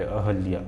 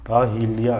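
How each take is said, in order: First: "अहल्या" with no i after h; unstressed "ha" in "अहल्या"; correct form "अहल्या". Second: Slow "अहिल्या" with an i after h; drawn-out, mistaken "अहिल्या"; wrong form "अहिल्या". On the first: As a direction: say "अहल्या" with plain "hal", no weight on h. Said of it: "ह में जोर नहीं डालता ई की मात्रा का". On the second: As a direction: lean on the "hi" in "अहिल्या". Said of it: "लेकिन इसका शुद्ध रूप क्या होता है". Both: Shown as a demonstration.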